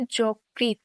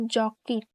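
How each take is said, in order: First: যকৃৎ said as জোকৃত্, the first vowel like o; pronounced. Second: Said in the usual way. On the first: Shown as a demonstration. Teacher demonstrating how যকৃৎ is said. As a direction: model যকৃৎ with an o sound. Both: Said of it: "এর উচ্চারণ হবে".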